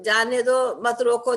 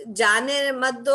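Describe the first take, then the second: First: "जाने दो मत रोको" louder, break after "दो"; pause placement demo. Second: "जाने मत दो" slow and louder, pause after "मत"; pause placement demo. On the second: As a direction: stretch "जाने मत दो", with the break falling after "मत". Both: Shown as a demonstration. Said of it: "comma का जो अंतर आता है".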